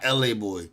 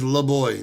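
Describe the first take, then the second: First: The first part is said as two letters. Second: The first part is said as one syllable. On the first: The speaker calls it wrong. "not L A Boy" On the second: The speaker calls it right. "his name is La Boy"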